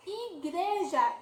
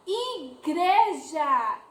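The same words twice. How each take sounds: First: Said in the usual way. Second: Igreja stretched very slowly, syllable by syllable; drawn-out syllables. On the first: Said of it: "teacher repeating word". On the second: Shown as a demonstration. Teacher to children, sounding out Igreja very slowly. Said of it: "teacher drawing out word".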